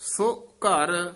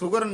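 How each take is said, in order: First: The first vowel is drawn out, words kept separate. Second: The vowel is short, words run together. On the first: The speaker calls it right. "ਯਾਨੀ ਲਮਕਾ ਕੇ ਬੋਲਣਾ ਹੈ" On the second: The speaker calls it wrong. "ਸੁਗਰ ਨਹੀਂ ਕਹਿਣਾ"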